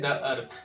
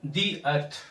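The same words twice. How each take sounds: First: "the" in "the earth" said with a schwa, "thuh"; common mispronunciation. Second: "the" in "the earth" as long "thee"; correct pronunciation. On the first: Teacher showing learners' mistake, "the earth" with a "thuh". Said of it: "जो बहुत भारी mistake है". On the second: Teacher correcting learners, "the earth" with "thee". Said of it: "इसको हमें पढ़ना होगा". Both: Shown as a demonstration.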